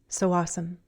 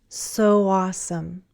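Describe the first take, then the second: First: The phrase is said faster. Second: The phrase is said slowly. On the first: "and then faster" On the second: "first slowly"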